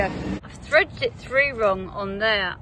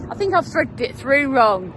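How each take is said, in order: First: Slow, explaining as she points it out; "I've threaded it through wrong" said slowly, one word at a time; slow showing. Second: Said in the usual way. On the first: Shown as a demonstration. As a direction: take it slowly, showing the mistake. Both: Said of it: "oh, I'll show you".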